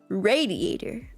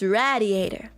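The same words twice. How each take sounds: First: The first syllable does not sound like 'rad'. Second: The first syllable sounds like 'rad'. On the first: The speaker calls it right. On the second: The speaker calls it wrong.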